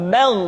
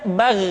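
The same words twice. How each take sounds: First: "bal" as bagh with a heavy, dark vowel; thickened bagh. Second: "bal" as bagh with a thin, flat vowel; wrong thin bagh. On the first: Teacher showing the correct letter, thickened "bal". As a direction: say "bal" thick, ending in throaty gh. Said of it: "tetapi menebal". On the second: Teacher showing what to avoid, thin "bal". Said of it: "tidak bal". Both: Shown as a demonstration.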